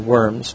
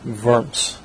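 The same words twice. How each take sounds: First: The word begins with a W sound. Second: The word begins with a V sound. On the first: The speaker calls it wrong. "we wouldn't say Worms" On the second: The speaker calls it right. "in German the W is pronounced as a V"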